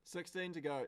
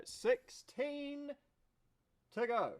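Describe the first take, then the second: First: Said in the usual way. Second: "Sixteen" stretched out long and much higher; excited drawn-out count. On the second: Real, not acted. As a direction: savour the countdown like a chant.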